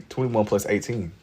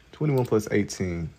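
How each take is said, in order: Both takes have the same delivery.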